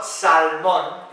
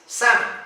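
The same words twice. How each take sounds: First: "salmón" with the L sounded, sal-MON; mispronunciation demo. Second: "salmon" as SAM-un, silent L; correct pronunciation. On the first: Teacher showing what it's not, mispronounced. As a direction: say "salmón" slowly, L heard and stress on MON. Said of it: "So it's not". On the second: Teacher correcting learners on the silent L, correctly pronounced. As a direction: say "salmon" without any L, stressed at the start. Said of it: "La L no se pronuncia". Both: Shown as a demonstration.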